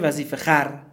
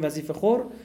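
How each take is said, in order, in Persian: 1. آخرین هجا مصوت a داره، khar. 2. آخرین هجا مصوت o داره، khor. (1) "ولی خونده میشه وظیفه خر" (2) "امروز ما میگیم وظیفه خور"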